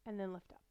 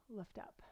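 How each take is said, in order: First: Said in the usual way. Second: Soft whispered instruction; whispered cue. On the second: Shown as a demonstration. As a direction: breathe the cue out quietly.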